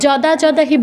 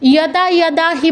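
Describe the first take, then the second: First: Each word begins with a J sound. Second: Each word begins with a Y sound. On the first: The speaker calls it wrong. "যদা যদা হি বলবো না" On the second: The speaker calls it right. "এটাকে ইয় বলবো, ইয়াদা ইয়াদা হি বলবো"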